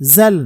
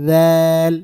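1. প্রথম ধ্বনিটি জিভ বের না করে বলা হয়। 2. প্রথম ধ্বনিতে জিভের ডগা দুই দাঁতের মাঝে থাকে। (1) "জাল না। আমরা যারা জাল বলি তারা কিন্তু এটাকে ভুল উচ্চারণ করি।" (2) "জিব্বার আগা সামনের উপরে দুই দাঁতের আগার সাথে লাগাতে হবে এবং জিব্বার আগাটা সামান্য একটু বের করে দিতে হবে"

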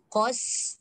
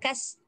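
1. Suku kata itu diucapkan tebal, dengan vokal membulat. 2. Suku kata itu diucapkan tipis, dengan vokal terbuka. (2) "Jangan kas"

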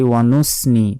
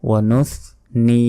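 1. মাঝের ব্যঞ্জনটি সাধারণ 's' ধ্বনির মতো। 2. মাঝের ব্যঞ্জনটি 'th' ধ্বনি। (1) "তাহলে কিন্তু ভুল হয়ে গেল" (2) "অবশ্যই সা আসলে যেভাবে বের করতেই হবে"

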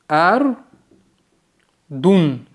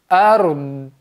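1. Слово заканчивается на гласную и «н». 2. Слово заканчивается на приглушённый согласный.

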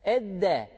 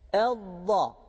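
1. Ünsüz düz d gibi duyulur. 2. Ünsüz kalın, yan dilli bir d'dir. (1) "Edde dersek bu da dal harfine benzer" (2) "dilimizi yan tarafa biraz dokunduruyoruz"

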